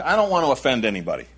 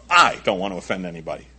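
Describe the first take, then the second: First: Said in the usual way. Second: "I" punched, then the rest quick and lower; stress on I. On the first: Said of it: "But I, I don't want to". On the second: Shown as a demonstration. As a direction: hit "I" hard, as opposed to others. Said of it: "I can do a pretty good job of this".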